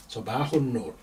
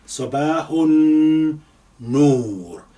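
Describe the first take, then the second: First: Said in the usual way. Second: Sabahun Noor slow and louder, the n held long; doubled n. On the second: Shown as a demonstration. Teacher stressing the shadda for students, slow and louder. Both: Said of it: "because of the shadda on this noon".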